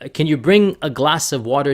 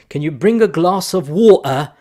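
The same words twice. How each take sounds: First: It is spoken in an American accent. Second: It is spoken in a British accent. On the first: "if an American says that" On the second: "I'm going to try my fake British accent here"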